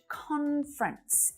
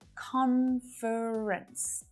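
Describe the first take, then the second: First: The word is said with two syllables. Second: The word is said with three syllables. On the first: "in naturally spoken English, conference is much, much more common" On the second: "the little schwa"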